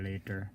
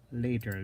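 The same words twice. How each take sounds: First: Soft echo. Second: Said in the usual way. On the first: Shown as a demonstration. Repeats the word, then softer.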